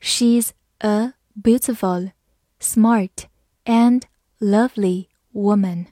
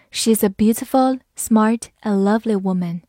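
First: "She's a beautiful, smart and lovely woman" slowly, word by word; slow reading. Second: Said in the usual way. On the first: Shown as a demonstration. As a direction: pause between the words. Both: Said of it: "我们慢慢来读".

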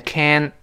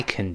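First: "can" with full open vowel, T dropped; American can't. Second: "can" reduced to an unstressed "k'n"; quick low "can" with a swallowed vowel; weak form can. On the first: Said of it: "在美语中这个can't". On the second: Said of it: "那读成can". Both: Shown as a demonstration.

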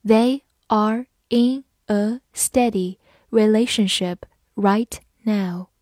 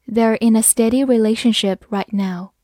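First: Word by word, with clear gaps between words; slow careful reading. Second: Said in the usual way. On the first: Shown as a demonstration. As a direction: read slowly, each word set apart. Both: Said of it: "好，慢慢来读".

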